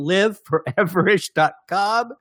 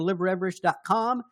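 First: It is said more slowly. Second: It is said quickly.

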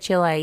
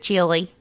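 First: It is not pronounced like the word chili. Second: It is pronounced just like the word chili. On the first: "That you said Chile" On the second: "instead of Chile"

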